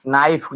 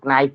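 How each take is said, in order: First: Said in the usual way. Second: "नाइफ" with the silent k sounded first, k-naif; wrong pronunciation. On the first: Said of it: "माने चाकू होता है". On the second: Shown as a demonstration. Teacher showing a schoolroom error, k sounded in "नाइफ". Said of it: "आगे क बोल दिया जाता है".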